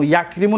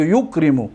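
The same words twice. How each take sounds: First: یکرمو begun with ya, as yakrimu; یکرمو mispronounced as yakrimu; wrong first vowel ya. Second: یکرمو begun with yu, as yukrimu; یکرمو as yukrimu, dropping in pitch; first syllable yu. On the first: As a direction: say یکرمو with a short a after the y. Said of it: "نمیگو". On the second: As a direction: say یکرمو with u after the y. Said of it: "یکرمو نمیگو". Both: Shown as a demonstration.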